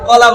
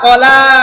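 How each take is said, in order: First: The second vowel is short. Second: The second vowel is drawn out long. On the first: It is the everyday word for banana. The speaker calls it wrong. "আমরা যে বাজার থেকে কলা কিনি" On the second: It is the word read in the text. The speaker calls it right. "লাতে লম্বা করতে হবে।"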